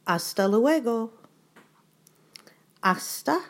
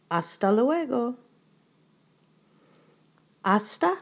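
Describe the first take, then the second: No difference in how they are said.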